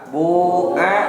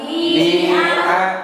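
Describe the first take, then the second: First: The first vowel is a rounded u. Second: The first vowel is a plain i. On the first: "Pertama didommahkan" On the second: "kedua dikasrohkan"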